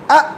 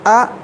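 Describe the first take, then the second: First: The vowel is cut off with an abrupt stop. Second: The vowel fades out smoothly without a stop. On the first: The speaker calls it wrong. "बिल्कुल गलत है, इसलिए कि आप झटका दे दिए" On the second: The speaker calls it right. "ये तो बिल्कुल ठीक है"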